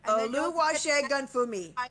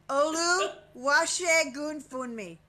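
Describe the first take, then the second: First: The n sound in Funmi is dropped. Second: The n sound in Funmi is pronounced. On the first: "And take the N away that is in the word" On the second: "you don't get to pronounce the N"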